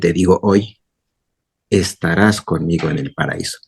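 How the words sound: The pause comes after the word 'hoy'.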